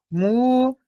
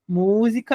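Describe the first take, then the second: First: Mu-zi-ca split into three separate beats; spaced-out syllables in Mu-zi-ca. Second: Música as one word, leaning on MÚ; Música with MÚ strongest; stressed syllable. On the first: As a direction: count out Mu-zi-ca slowly, pausing after each syllable. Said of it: "claramente a separação silábica". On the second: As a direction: hit the first syllable of Música. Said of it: "é a nossa sílaba mais forte". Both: Shown as a demonstration.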